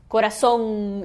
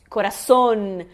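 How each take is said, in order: First: "corazón" ending in nasal "-om", tongue never closing on N; nasal Portuguese ending. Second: "corazón" with the last N fully tongued; clear final N. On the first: Teacher showing the Portuguese error, nasal open ending. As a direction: leave the last N unsounded, just a nasal vowel. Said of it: "esse som do português". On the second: Teacher showing the correct Spanish, well-sounded final N. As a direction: land on a distinct N at the end. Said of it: "Tudo bem pronunciado o N". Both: Shown as a demonstration.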